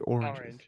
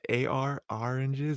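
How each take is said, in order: First: The first syllable sounds like 'or'. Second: The first syllable sounds like 'ar'. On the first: "I say oranges" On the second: "it's like AR oranges. I don't say that"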